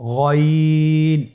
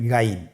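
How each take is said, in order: First: The letter name is pronounced heavy and full. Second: The letter name is pronounced light and thin. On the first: The speaker calls it right. "মোটা করে বলতে হবে" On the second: The speaker calls it wrong. "এটা ভুল উচ্চারণ"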